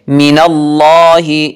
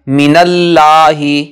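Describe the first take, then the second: First: The L in Allah sounds thick and heavy. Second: The L in Allah sounds thin and light. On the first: The speaker calls it right. "लफ्ज़ अल्लाह को मोटी आवाज़ में पढ़ेंगे" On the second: The speaker calls it wrong. "इसको बारीक आवाज़ में पढ़ना गलती शुमार होगा"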